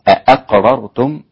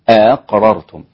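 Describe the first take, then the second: First: Both glottal stops are pronounced fully and clearly. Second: The second glottal stop is softened, not fully stopped. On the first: The speaker calls it wrong. "لكن لا تنطق بالتحقيق للهمزتين، أقررتم لا" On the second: The speaker calls it right. "بتسهيل الهمزة الثانية"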